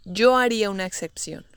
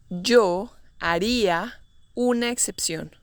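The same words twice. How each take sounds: First: Said in the usual way. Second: Phrase by phrase, with pauses between. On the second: Shown as a demonstration. Teacher models example slowly, then naturally.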